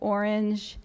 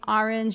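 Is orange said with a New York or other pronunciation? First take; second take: other; New York. First: It is said with a non-New York pronunciation. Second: It is said with a New York pronunciation. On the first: "instead of orange" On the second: "certain New York features. So saying orange"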